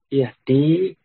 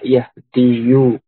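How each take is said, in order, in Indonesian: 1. Kata itu berakhiran 'di' tanpa vokal akhir. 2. Kata itu berakhiran 'diyu' dengan vokal akhir. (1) "Yahdi asalnya yahdiyu" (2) "asalnya yahdiyu"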